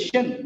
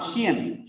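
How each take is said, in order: First: "shin" as one syllable, shun; one short vowel in "shin"; correct "shin" ending. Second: "shian" with two vowels, shi-an; wrong "shian" ending. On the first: Teacher showing the right ending, "shin" said as shun. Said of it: "it is shin". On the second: Teacher showing the wrong ending, "shian" said shi-an. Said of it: "not shian". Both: Shown as a demonstration.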